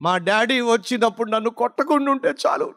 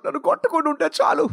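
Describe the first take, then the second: First: Said in the usual way. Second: Put-on higher, fast, anxious child's plea; imitating a scared child. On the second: Scared son hoping dad won't beat him, pleading fast. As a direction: hurry it out like a frightened boy. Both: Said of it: "వాడికున్న భయం ఏమిటయ్యా అంటే".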